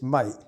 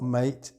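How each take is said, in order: First: The word is said in a London accent. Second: The word is said in a standard accent. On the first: The speaker calls it right. "it's mate" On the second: The speaker calls it wrong. "mate is not mate"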